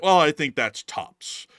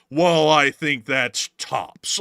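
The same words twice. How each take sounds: First: Slow mock imitation of the Seinfeld guest; a slow, light copy of the line; lightly imitated Seinfeld singer; imitating the guy. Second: Very slow, with the T and the P in tops hard and crisp; imitating the guy hitting tops; emphasis on tops. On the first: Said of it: "the way that guy said that". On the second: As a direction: spit out the T and P of tops, slowly. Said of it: "so much emphasis on the T and the P in tops".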